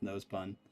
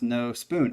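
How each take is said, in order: First: The second word has a short 'uh' vowel. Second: The second word has a long 'oo' vowel. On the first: "it's No Spun" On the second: "the U has a line over it, so maybe pronounced No Spoon"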